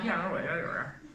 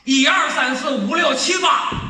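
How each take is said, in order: First: The numbers are mumbled and run together. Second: The numbers are said from the chest, forcefully. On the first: "北京人数数" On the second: "你要天津数数呢"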